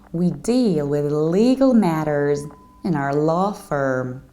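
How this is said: It is said in an American accent. "In the American accent"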